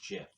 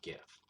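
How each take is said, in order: First: "Jif" said with a soft J sound, as in jam; soft-g pronunciation. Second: "gif" said with a hard G, as in gift; hard-g pronunciation. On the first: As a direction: start "Jif" like the word jet. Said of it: "it's pronounced Jif". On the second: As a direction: start "gif" like the word give. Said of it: "not gif". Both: Shown as a demonstration.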